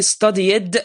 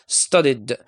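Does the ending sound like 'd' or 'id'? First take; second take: id; d. First: The ending is an extra 'id' syllable. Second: The ending is a plain 'd' sound. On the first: The speaker calls it wrong. "I can't pronounce it as ed or be studied, and this is wrong" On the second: The speaker calls it right. "So I say studied"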